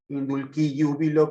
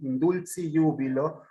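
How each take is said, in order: First: The Latin is pronounced in the classical style. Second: The Latin is pronounced in the German style. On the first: "si nos remontamos a la forma clásica" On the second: "pronunciar a la alemana"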